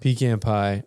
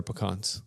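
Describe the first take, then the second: First: "Pecan pie" with PEE-CAN, short A. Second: "pecans" with a reduced first syllable and broad AH; "pecans" as puh-KAHNZ. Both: Shown as a demonstration. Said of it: "Those are different".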